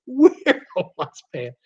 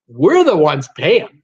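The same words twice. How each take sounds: First: "We're the ones paying" said through a chuckle; amused, laughing repeat. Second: Slow, louder, leaning hard on "We're"; indignant emphasis on "We're"; emphatic. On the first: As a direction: let the laugh spill into the repeat. Repeats the line while laughing. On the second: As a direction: drive home "We're the ones paying" with weight. Emphatic complaint about milk prices. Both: Real, not acted.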